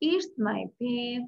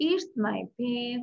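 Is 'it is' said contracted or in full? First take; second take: contracted; contracted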